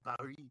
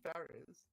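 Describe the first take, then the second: First: Paris is said the French way, with a silent S. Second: Paris is said the plain English way, with S. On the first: The speaker calls it wrong. "when people go holiday in France and they're like" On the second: The speaker calls it right. "just say Paris"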